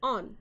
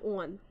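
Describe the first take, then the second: First: It is said with a standard American 'awn'-like vowel. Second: It is said in the speaker's usual, non-standard way. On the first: "I did it!" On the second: "On is how I say it"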